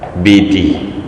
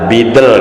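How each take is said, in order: First: The word ends in an 'ee' vowel. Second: The word ends in a consonant sound. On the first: This is how it is written on the calendar. The speaker calls it wrong. "Bidi tulisannya" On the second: This is how it should actually be read. The speaker calls it right. "padahal bidel gitu"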